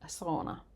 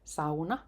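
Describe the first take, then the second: First: The word is said the common foreign way. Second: The word is said the native Finnish way. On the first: The speaker calls it wrong. "not sauna" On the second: The speaker calls it right. "pronounce correctly. It's sauna"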